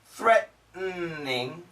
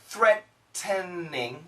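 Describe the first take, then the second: First: All syllables are pronounced carefully. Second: All syllables are pronounced carefully.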